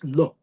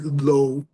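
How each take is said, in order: First: The vowel is a short, pure o sound. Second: The vowel glides like the English word low. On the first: The speaker calls it right. "the correct way for saying lo in Hebrew, in modern day Hebrew" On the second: The speaker calls it wrong. "it's not low, like how low can you go?"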